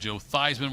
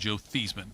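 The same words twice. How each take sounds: First: The surname is said to rhyme with Heisman. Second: The surname is said not rhyming with Heisman. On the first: This is the name as people commonly say it. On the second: This is the name as it originally was.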